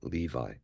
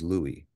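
First: The middle consonant is a V sound. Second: The middle consonant is a W sound. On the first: This is the later modern pronunciation. The speaker calls it wrong. "that's how it's actually said now" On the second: This is the original ancient pronunciation. The speaker calls it right. "the accurate way of pronouncing it, or what he would have said himself"

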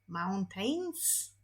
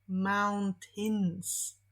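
First: The second syllable has an 'ay' vowel. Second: The second syllable has a short 'i' vowel. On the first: The speaker calls it wrong. "myślimy, że to jest ej" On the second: The speaker calls it right. "Powinniśmy powiedzieć mountains"

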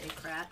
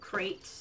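First: The vowel is short, like in 'cat'. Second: The vowel is long, like in 'gate'. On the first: This is the speaker's own preferred way. The speaker calls it right. "so I say Krat" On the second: This is how most people say it. The speaker calls it wrong. "Most people pronounce it crate"

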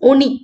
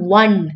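First: The word starts with a plain vowel sound. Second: The word starts with a w sound. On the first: "you could have pronounced it as ഒണി" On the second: "with a വ"

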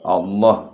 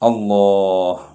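First: The vowel after the double L is short. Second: The vowel after the double L is long. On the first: It no longer counts as the divine name. The speaker calls it wrong. "അവിടെ മദ് ചെയ്യാതെ പറഞ്ഞാൽ ജലാലത്തിൻ്റെ ഇസ്മ ആകുന്നില്ല" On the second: It counts as the divine name. The speaker calls it right. "അല്ലാഹ് എന്ന് പറയണം"

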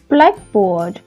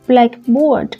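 First: The stress falls on the first part. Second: The stress falls on the second part. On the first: It is any board to write on, whatever its colour. "danh từ ghép, thì nó là cái bảng" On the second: "noun phrase blackboard thì có nghĩa là cái bảng có màu đen"

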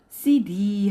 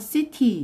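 First: The middle consonant sounds like a D. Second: The middle consonant is a clear T sound. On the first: "d 발음으로 끝나요" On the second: "t 발음은 나와서 city 이렇게 발음해야 되는데"

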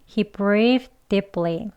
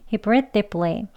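First: The sentence is spoken slowly. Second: The sentence is spoken fast. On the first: "천천히 두 번 해볼게요" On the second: "다음은 빨리 두 번 해보겠습니다"

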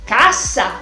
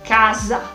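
First: The S sound is strong and forceful. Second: The S sound is soft and light. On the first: "la S española es más fuerte" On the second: "la S italiana, la sencilla, es más suave"

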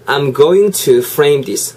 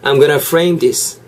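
First: 'Going to' is pronounced fully and more slowly. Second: 'Going to' is said fast, reduced to 'gonna'.

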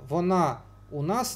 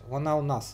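First: The small word is a separate full vowel u. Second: The small word is a glide joined to вона. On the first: The speaker calls it wrong. "не говорится, потому что сочетание гласных неблагозвучно" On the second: The speaker calls it right. "То есть не у, а о. То есть он дифтонгизируется"

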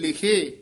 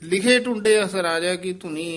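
First: There is a pause after the first word. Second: The words run on with no pause. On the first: The speaker calls it right. "ਇੱਥੇ ਵਿਸਰਾਮ ਲਾਉਣਾ ਹੈ" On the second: The speaker calls it wrong. "ਉਹ ਨਹੀਂ ਕਹਿਣਾ"

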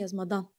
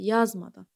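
First: The stress is on the second syllable. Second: The stress is on the first syllable. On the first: The speaker calls it wrong. "ikinci A-nın üzərinə" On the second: The speaker calls it right. "Vurğu əvvəldədir"

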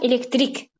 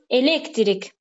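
First: The stress falls on the last syllable. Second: The stress falls before the last syllable. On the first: It names a type of energy. "bir də var elektrik sonda, yəni enerji növü" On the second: It names a person who does electrical work. "Bir var elektrik, elektrikçi"

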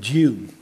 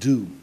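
First: It is said 'dyoo' with a glide. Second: It is said 'doo' with no glide.

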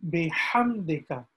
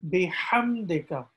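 No difference in how they are said.

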